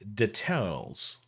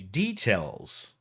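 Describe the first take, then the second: First: It copies the ad announcer's older pronunciation. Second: It uses the speaker's own everyday pronunciation. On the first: This is how the old ad said it. "But he said details" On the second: This is how people say it today. "Normally I would say details"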